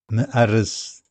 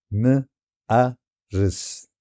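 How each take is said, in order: First: Said in the usual way. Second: مأرس stretched very slowly into its syllables. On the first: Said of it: "slow syllable demo". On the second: Shown as a demonstration. Teacher splitting مأرس into syllables, drawn out slowly. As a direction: break مأرس into slow separate syllables. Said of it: "syllables drawn out slowly".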